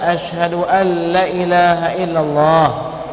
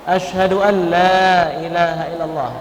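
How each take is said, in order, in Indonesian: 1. Vokal pada 'la' pendek. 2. Vokal pada 'la' panjang. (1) "jangan kalian baca" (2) "La-nya harus panjang"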